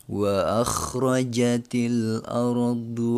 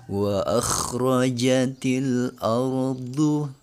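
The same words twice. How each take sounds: The two takes are said the same way.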